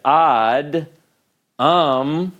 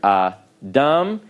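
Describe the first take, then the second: First: The word breaks after the d sound. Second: The word breaks before the d sound. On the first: The speaker calls it wrong. "that's not possible" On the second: The speaker calls it right. "each syllable begins with a consonant"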